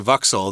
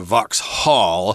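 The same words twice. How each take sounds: First: It is said with a British accent. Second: It is said with an American accent.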